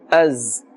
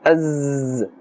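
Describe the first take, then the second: First: The sound is kept short and not stretched. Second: The sound is stretched and held long. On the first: The speaker calls it right. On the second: The speaker calls it wrong. "Be careful not to stretch the sound of the za"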